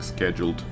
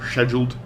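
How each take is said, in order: First: It is said with a non-British pronunciation. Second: It is said with a British pronunciation.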